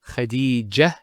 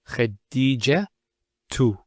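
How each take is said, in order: First: The word ends with an h sound. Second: The word ends with a t and vowel. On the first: The speaker stops on the word. "If we stop at the ta, Khadija, it's a ha" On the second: The word continues with a case vowel. "We pronounce the ta"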